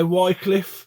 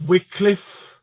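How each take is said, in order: First: Wycliffe with a long "eye" in the first syllable; WHY-cliff pronunciation. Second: Wycliffe with a short "i", first syllable like "wick"; WICK-cliff pronunciation. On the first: Collector offering viewers one way to say it, Wycliffe as WHY-cliff. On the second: Collector offering viewers the other way to say it, Wycliffe as WICK-cliff. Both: Shown as a demonstration. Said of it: "it depends how you say it".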